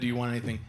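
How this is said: It is said in a dark, menacing way.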